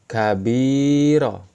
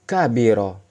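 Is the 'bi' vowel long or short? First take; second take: long; short. First: The 'bi' vowel is held long. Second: The 'bi' vowel is kept short. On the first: "Namun ketika ada ya sukun" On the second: "tidak ada ya sukun"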